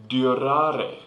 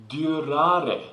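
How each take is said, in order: No difference in how they are said.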